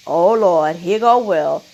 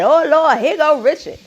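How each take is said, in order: First: Said in the usual way. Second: Raised, louder mock announcement; imitating a mocking jab, pitched up; mocking quote. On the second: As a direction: call it out higher, poking fun at the man. Mimicking Chris Rock's mocking line.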